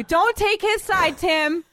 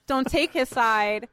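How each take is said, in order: First: High, drawn-out protest; slow it down and pitch it up in protest; indignant protest. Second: Said in the usual way. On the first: Real, not acted. Host tells Tim off for backing co-host, high indignant protest. Scolds Tim for siding with Dave.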